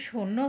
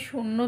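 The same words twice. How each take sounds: Both takes have the same delivery.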